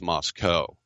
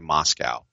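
First: It is pronounced the way the Idaho town is. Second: It is pronounced the way the Russian city is. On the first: This names the town in Idaho. The speaker calls it right. "It's Moscow" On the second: This names the city in Russia. The speaker calls it wrong. "you don't say Moscow. Moscow's in Russia"

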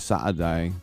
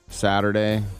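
First: The middle T is dropped, British style. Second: The middle T sounds like a D.

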